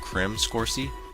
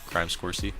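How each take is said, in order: First: The first word has a short 'ih' vowel. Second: The first word has a long 'eye' vowel. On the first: "I want to say it's called Crim Scorsy" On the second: "they spell it C R I M E, so it's crime"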